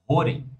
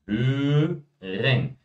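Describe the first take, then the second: First: The first vowel is said without rounded lips. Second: The first vowel is said with rounded lips, carefully. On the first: The speaker calls it wrong. "eles costumam falar assim" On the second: The speaker calls it right. "Fala o E, faz o bicão"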